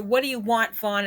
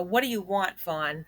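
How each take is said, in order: First: Said in the usual way. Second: A fed-up mock of the mother's question; more like a. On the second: Critic mocking how the mother really asked her son, annoyed and softer. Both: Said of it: "is more like a".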